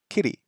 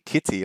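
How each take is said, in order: First: Kitty is said in an American accent. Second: Kitty is said in a non-American accent. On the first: "for our American friends, ... You might say kitty" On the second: "like I would"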